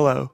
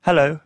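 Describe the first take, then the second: First: A short hello in an American accent, like Sean. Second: Hello in his own British English accent; a brief, British-sounding "hello". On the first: Actor demos Sean's accent for the host, American accent. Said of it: "Faites, faites-le moi, l'accent américain". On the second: Actor shows the host his own English, British accent. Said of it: "Ça, c'est mon anglais". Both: Shown as a demonstration.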